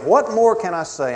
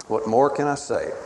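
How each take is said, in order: First: Higher, louder anguished plea; urgent pleading cry; God pleading. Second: Settled, softer repeat of the plea; soft closing plea; quiet pleading God. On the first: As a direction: throw the question out as a pleading God. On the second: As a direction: let the question fall gently, resigned. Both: Acted. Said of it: "God is pleading and imploring".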